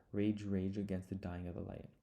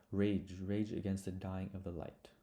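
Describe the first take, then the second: The two takes are said the same way.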